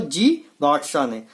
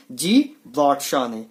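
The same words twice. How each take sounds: First: Said in the usual way. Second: Slow, lower drill answer. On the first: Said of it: "किसने की scooter की खोज?". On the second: Shown as a demonstration. Teacher answering his scooter quiz slowly. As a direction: drag the answer out so it sticks. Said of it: "तो scooter की खोज किसने की?".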